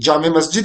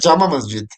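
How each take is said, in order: First: The first word ends in an 'e' sound. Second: The first word ends in an 'a' sound. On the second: "वैसे तो जामा कहते हैं हम आम आम तौर पे"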